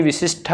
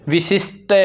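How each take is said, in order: First: विशिष्ट ending in aspirated "shth"; contrasted ending. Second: विशिष्ट ending in unaspirated "sht"; contrasted ending. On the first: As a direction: put a puff of air on the last t of विशिष्ट. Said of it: "विशिष्ट होता है". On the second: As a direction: end विशिष्ट on a plain t. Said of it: "विशिष्ट नहीं". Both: Shown as a demonstration.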